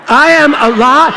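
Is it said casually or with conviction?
conviction. It is said with strong, heartfelt conviction.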